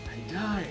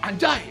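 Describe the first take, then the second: First: It sounds impressed and admiring. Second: It sounds angry and harsh. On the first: Something looks beautiful or impressive. "itu juga adalah kekaguman" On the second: The word is used as an insult in anger. "Atau mungkin kita marah"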